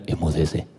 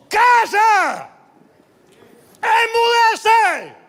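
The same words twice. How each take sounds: First: Like a film Jesus, hushed; solemn movie voice. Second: Much higher, loud yelled rebuke; furious shout. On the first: Shown as a demonstration. Movie Jesus to storm, low solemn command. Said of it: "no es que le dijo como en las películas". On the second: Acted. Jesus rebukes the storm, loud furious shout. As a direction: scold the storm at full voice. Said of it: "increpó y gritó".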